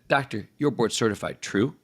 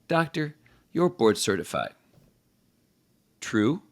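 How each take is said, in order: First: The word 'true' follows with no pause. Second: A clear pause comes before the word 'true'. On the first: The speaker calls it wrong. "Instead of" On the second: The speaker calls it right. "let some pause before you say the true"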